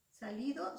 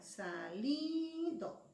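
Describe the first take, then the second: First: Said in the usual way. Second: SALIDO very slow, with a long, raised, held LI; stress on LI. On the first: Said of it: "su sílaba tónica". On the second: Shown as a demonstration. Teacher showing students the tonic syllable, drawn-out stress on LI. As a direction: stretch the middle syllable of Salido. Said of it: "Es li".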